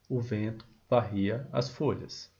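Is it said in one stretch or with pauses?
one stretch. The whole line is said without breaks.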